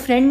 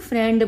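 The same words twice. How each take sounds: First: The word is said crisply, in polished English. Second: The word is drawn out in a rustic way. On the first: Said by someone fluent in English. "वो फ्रेंड नहीं बोलेंगे" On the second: Said by someone with little English schooling. "खींच कर ... पेंडू तरीके से बोला जाता है"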